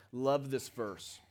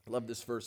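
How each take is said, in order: First: "Love this verse" drawn out slowly; slow savoring. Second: "Love this verse" said quietly, lower; soft repeat. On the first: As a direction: linger on every word of "Love this verse". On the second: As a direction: drop it to a near-private echo. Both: Real, not acted.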